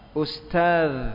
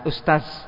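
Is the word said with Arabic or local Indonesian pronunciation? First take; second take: Arabic; local Indonesian. First: The word has a fluent Arabic pronunciation. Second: The word has a local Indonesian pronunciation. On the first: The speaker calls it right. "sekarang pelajar sedikit fasih" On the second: The speaker calls it wrong. "jangan ustaz"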